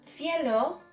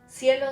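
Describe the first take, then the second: First: The first consonant is a th sound. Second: The first consonant is a plain s sound. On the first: This is how it is said in Spain. "peninsular Spanish, so I mean Spain, would be cielo" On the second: This is how it is said in Latin America. "cielo would be a Latin American pronunciation"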